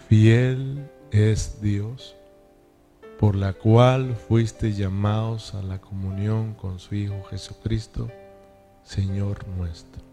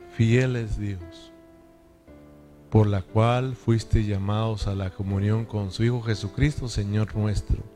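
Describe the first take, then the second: First: It is read very slowly. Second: It is read slowly, with pauses.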